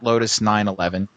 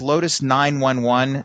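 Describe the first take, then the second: First: The number is said as nine-eleven. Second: The number is said as nine-one-one. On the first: It refers to the date of the 2001 attacks. The speaker calls it wrong. "not Lotus 911 ... that mistake gets made" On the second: It refers to the emergency phone number. The speaker calls it right. "It's Lotus 911, like what you dial in an emergency"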